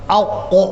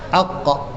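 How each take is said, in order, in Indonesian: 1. Bunyi q dibuat sangat berat dan tebal. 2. Bunyi q dibuat hanya sedikit berat. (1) "tetapi tidak terlampau tebal" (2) "sikit je gitu"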